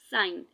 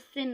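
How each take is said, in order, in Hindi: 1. इसका उच्चारण लंबे स्वर के साथ होता है, 'sign' की तरह। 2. इसका उच्चारण छोटे स्वर के साथ होता है, 'sin' की तरह। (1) "हम लोगों ने इसको क्या पढ़ते थे उस टाइम पे" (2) "लेकिन अब यहाँ पे जो वर्ड यूज होता है वो सिन होता है"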